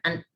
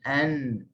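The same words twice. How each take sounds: First: The n is pressed hard and its sound stops abruptly. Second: The n is held lightly and its sound rings on. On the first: The speaker calls it wrong. "dia bukan an. Tak, kita tidak kita tidak kuatkan hujung lidah" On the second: The speaker calls it right. "pertemuan huruf nun dengan hujung lidah dengan langit dalam keadaan yang tidak kuat"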